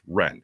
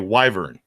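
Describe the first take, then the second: First: The word is said with one syllable. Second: The word is said with two syllables. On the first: The speaker calls it right. "it's actually supposed to be pronounced wren" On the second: The speaker calls it wrong. "They're spelt like they should say wyvern"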